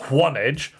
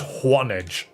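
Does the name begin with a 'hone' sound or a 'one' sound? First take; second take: one; one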